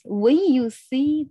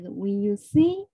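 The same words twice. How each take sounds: First: The word when carries the stress. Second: The word see carries the stress. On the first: The speaker calls it wrong. "not not like us when you see the cube" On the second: The speaker calls it right. "when you see see 才是的"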